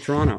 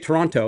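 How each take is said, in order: First: One t sound in the word is dropped. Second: Every t sound in the word is pronounced. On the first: The speaker calls it right. "they lose the T" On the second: The speaker calls it wrong. "they don't say Toronto"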